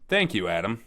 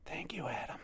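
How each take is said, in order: First: It is said loudly, almost yelled. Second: It is said at a quieter volume.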